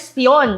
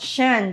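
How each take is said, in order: First: The ending is said as 'syon'. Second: The ending is said as 'shun'. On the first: The speaker calls it wrong. "Hindi siya pwede syon" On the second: The speaker calls it right. "dapat shen"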